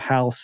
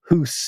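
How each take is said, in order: First: The vowel sounds like 'ow', the modern pronunciation. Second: The vowel sounds like 'oo', an older pronunciation. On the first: This is the usual modern pronunciation. "instead of house and mouse" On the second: This is how it was pronounced in Old English. "When people say hoose and moose"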